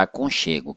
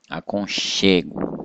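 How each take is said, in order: First: Said in the usual way. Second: "aconchego" said slowly, CHE held and leaned on; slow down and stress CHE in "aconchego". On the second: Shown as a demonstration. Teacher pointing out the tonic syllable, stress on CHE in "aconchego". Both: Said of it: "essa é a sílaba tônica".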